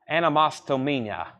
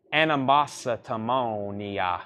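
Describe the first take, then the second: First: "Animositomonia" run together faster; quicker pronunciation. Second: "Animositomonia" said slowly, every syllable spelled out; careful slow pronunciation. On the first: Seller repeating the title faster to viewers. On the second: Seller sounding out the album title for viewers, slowly. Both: Shown as a demonstration. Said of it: "if you say it fast enough".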